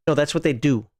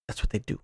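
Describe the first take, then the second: First: Said in the usual way. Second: Whispered echo under the breath; whispered repeat. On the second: Shown as a demonstration. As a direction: whisper it to yourself.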